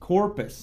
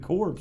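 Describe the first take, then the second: First: The name is said with two syllables. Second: The name is said with one syllable. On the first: The speaker calls it right. "his name is pronounced Corpus" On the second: The speaker calls it wrong. "That's better than Corpse"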